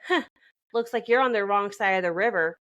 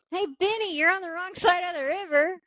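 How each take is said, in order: First: Flat deadpan delivery, no lilt. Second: High sing-song movie-line delivery; pitched up high like the film's line; quoting the movie line. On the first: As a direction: say it dead flat. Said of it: "She just deadpans it". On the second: Friend to Benny, quoting The Mummy in a high sing-song. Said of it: "and I just go". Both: Retold or imitated.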